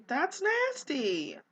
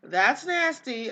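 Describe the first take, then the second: First: Disgusted, drawn out. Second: A louder, slower repeat of the disgust. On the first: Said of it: "Don't eat that". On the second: Vlogger disgusted at her Sim eating old food, louder and slowly. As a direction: tell the viewers the leftovers are gross, louder and slowly. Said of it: "eat your B L T". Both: Real, not acted.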